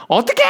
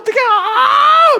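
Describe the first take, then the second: First: Imitating a flustered driver's high cry; a stranded woman yelling for help; panicked cry. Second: Much higher, slow, louder mock shriek; drawn-out panicked shriek. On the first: Flustered truck driver crying out, mock panic. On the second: Woman stuck on the slope wailing for help, hammed-up shriek. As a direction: stretch the cry out like a woman in full panic. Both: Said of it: "막 이러면서 거기 서 계시는 거예요".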